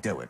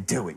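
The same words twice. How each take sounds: First: It is said in a nice, friendly tone. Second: It is said in a harsh, demanding tone.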